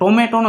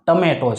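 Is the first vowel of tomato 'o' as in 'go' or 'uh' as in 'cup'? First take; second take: o; uh. First: The first vowel sounds like 'o' in 'go'. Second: The first vowel sounds like 'uh' in 'cup'. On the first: The speaker calls it wrong. "ટોમેટો નથી" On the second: The speaker calls it right. "આ ટમેટો છે"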